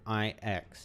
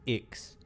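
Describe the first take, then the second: First: The name is said as two separate letters. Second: The name is said as one short word. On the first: This is how the characters actually say the name. The speaker calls it right. "they actually pronounce it I X" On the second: This is how the speaker assumed the name was said. The speaker calls it wrong. "I always thought uh, the Nihility guy's name was Ix"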